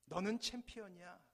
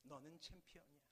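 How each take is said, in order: First: A loud call of encouragement; fatherly shout. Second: Much softer echo returning; faint echo. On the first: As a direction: shout it proudly across the valley. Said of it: "아버지는 고함을 지릅니다". (아버지의 힘찬 외침) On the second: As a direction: let it drift back from afar. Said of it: "목소리가 잠시 후에 들리죠". (멀리서 들리는 메아리) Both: Acted.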